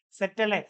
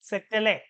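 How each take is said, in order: Both takes have the same delivery.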